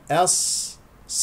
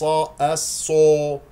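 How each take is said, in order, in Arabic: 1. يُنطق صوت S بشفتين غير مُكوّرتين. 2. يُنطق صوت S بشفتين مُكوّرتين. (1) "صاد مشددة" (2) "لا تقول أص أصو، لا تكور الشفتين"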